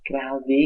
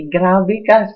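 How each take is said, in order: First: Said in the usual way. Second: Much louder and higher on ka; indignant outburst. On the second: Real, not acted. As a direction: throw the accusation at him. Bumubulalas sa galit. (malakas at mataas na panunumbat)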